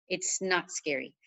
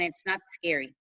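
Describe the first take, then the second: First: It's not scary repeated slower and softer, not stretched out; slow down and soothe on It's not scary; slow soft reassurance. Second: Said in the usual way. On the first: Shown as a demonstration. Coach calming a nervous new coach, slow soft reassurance.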